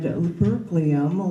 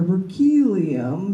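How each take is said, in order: First: It is said with an American pronunciation. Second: It is said with a British pronunciation.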